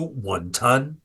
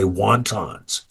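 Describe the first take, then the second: First: It has a Cantonese pronunciation. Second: It has an anglicized, American pronunciation. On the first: This is how the family says it. "the way my parents Cantonese toy san" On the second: The character has lost touch with his heritage. "I purposely pronounce it that way"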